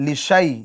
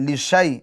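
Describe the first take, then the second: No difference in how they are said.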